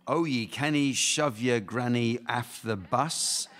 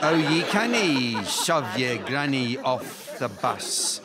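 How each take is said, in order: First: Put-on reciting a nursery rhyme in a broad Scottish accent; sing-song Scottish rhyme, slowed down; Scottish accent read slowly; thick Scottish accent. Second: Drawn-out Scottish rhyme recital; Scottish accent again, slower. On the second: Pretend. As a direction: lean harder on the Scottish accent, slowly. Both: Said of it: "my Scottish accent is too thick".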